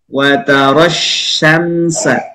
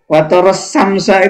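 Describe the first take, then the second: First: The first consonant of syamsa sounds like 'sh'. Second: The first consonant of syamsa sounds like plain 's'. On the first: The speaker calls it right. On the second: The speaker calls it wrong.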